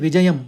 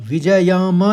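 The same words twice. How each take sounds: First: The final m is cut short without a vowel. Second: The final m carries a full following vowel. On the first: The speaker calls it right. "विजयम एकदम कहेंगे" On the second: The speaker calls it wrong. "विजयम नहीं कहेंगे"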